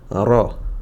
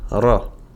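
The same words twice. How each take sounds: First: The r is heavy and fills the mouth. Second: The same.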